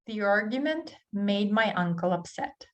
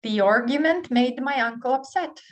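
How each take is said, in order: First: Said in the usual way. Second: Higher and louder, punching "argument"; lively model read. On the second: Shown as a demonstration. Teacher reading the last drill sentence with energy. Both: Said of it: "the last one".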